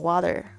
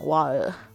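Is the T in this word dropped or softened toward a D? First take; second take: softened; dropped. First: The T is voiced, between a T and D. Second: The T sound is left out entirely. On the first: This is the American way of saying it. "美式发音的话，它会念成water" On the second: This is a regional British habit. "他不讲T 那个声音了"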